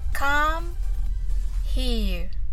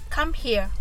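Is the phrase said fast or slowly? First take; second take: slowly; fast. First: The phrase is said slowly. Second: The phrase is said quickly. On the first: "まずはゆっくりです" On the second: "次は早く"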